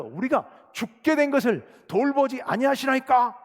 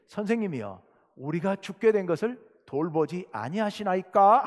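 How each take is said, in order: First: Loud, slow, higher-pitched reproach; accusing preacher's re-enactment of frightened disciples; reproachful plea. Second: Said in the usual way. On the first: Acted. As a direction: cry out the disciples' complaint, drawing it out. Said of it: "예수님을 책망하는 이야기입니다".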